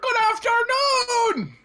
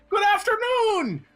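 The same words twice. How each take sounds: First: It is yelled at a greater volume. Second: It is yelled at a moderate volume.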